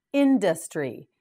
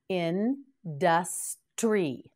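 First: Said in the usual way. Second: Industry said very slowly, each syllable drawn out; very slow model word. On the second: Shown as a demonstration. Teacher says the word very slowly for the class to repeat. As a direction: stretch it out for the learners. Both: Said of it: "Now you say it".

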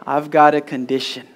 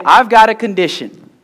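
First: Said in the usual way. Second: Loud, raised-pitch call to the congregation; loud prompt. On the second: Shown as a demonstration. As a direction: proclaim it for the crowd to repeat. Preacher prompts congregation to repeat.

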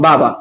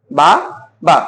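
First: Said in the usual way. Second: "বা, বা" broken by a clear pause; syllable by syllable. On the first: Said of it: "একসাথে যদি উচ্চারণ করতে যাই". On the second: Shown as a demonstration. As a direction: say "বা, বা" as two separate breaths. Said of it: "পারতেছি না".

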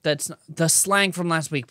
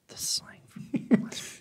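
First: Said in the usual way. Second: Whispered under the breath; whispering. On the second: Real, not acted. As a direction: whisper it to yourself. Repeating a phrase under his breath.

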